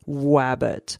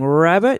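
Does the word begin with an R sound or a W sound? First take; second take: W sound; R sound. First: The word begins with a W sound. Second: The word begins with an R sound. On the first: "it sounds like wabbit" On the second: "instead of saying rabbit"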